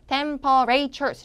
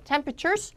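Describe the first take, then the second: First: The unstressed vowels are fully pronounced. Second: The unstressed vowels are reduced and blurred. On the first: The speaker calls it wrong. "이렇게 읽지 말고요" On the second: The speaker calls it right. "강세가 안 들어가는 나머지 모음들은 다 뭉개져야지 정상이에요"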